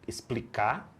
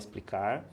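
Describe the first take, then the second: First: The verb ends with an audible final R. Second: The verb ends without the final R. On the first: The speaker calls it right. "é preciso usar o R" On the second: The speaker calls it wrong. "não fala explicar"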